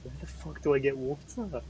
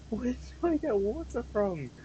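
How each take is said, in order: First: Said in the usual way. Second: Higher, slower whine; whiny high repeat. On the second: Acted. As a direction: whine it like a helpless kid.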